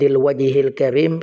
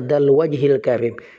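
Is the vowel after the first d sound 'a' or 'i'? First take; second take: i; a. First: The vowel after the d is 'i'. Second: The vowel after the d is 'a'. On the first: The speaker calls it wrong. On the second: The speaker calls it right.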